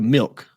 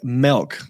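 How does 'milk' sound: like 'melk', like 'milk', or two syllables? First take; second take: milk; melk. First: The vowel sounds like the i in 'milk'. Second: The vowel sounds like the e in 'belk'. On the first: "I go milk" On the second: "you're saying milk, like M E L K"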